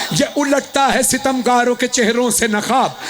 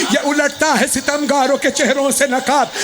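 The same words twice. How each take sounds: No difference in how they are said.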